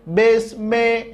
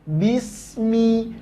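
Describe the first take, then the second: First: The vowels sound like 'e'. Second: The vowels sound like 'i'. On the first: The speaker calls it wrong. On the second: The speaker calls it right. "tapi bismi, jelas baris bawahnya"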